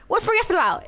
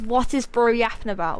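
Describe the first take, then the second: First: The phrase is spoken very quickly, words run together. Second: The phrase is spoken at a normal, unhurried speed.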